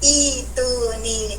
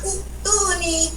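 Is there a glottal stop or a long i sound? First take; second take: long i; glottal stop. First: The word starts with a long i sound instead. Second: The word keeps a glottal stop after the first vowel. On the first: The speaker calls it right. "Kita baca itu nih" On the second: The speaker calls it wrong. "jangan baca itu nih"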